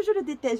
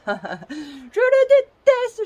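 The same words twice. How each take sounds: First: Said in the usual way. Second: Laughing while saying it. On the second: Real, not acted. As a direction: laugh through the words, high and loud. Repeats hatred of her tripod.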